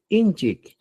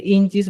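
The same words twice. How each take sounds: First: "inchik" closed by a K; new ending -CHIK. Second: "inchis" ending in a hissed S; old ending -CHIS. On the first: Teacher gives learners the replacement, "inchik" with K ending. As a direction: say "inchik" with final K, no S. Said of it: "voy a decir inchik". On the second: Teacher cites the form to replace, "inchis" with S ending. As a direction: say "inchis" with final S. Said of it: "En vez de inchis". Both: Shown as a demonstration.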